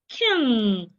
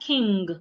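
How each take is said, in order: First: It ends on ng with no G heard. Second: A G sound is heard at the end. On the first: The speaker calls it right. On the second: The speaker calls it wrong.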